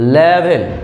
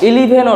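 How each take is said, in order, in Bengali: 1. শব্দটি সরাসরি L ধ্বনি দিয়ে শুরু হয়। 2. শব্দটি একটি স্বরধ্বনি দিয়ে শুরু হয়। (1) "সঠিক প্রোনাউন্সিয়েশন হবে লেভেন" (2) "যেটাকে আমরা ইলেভেন অর্থ জানি"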